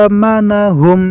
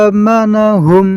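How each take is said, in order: Both takes have the same delivery.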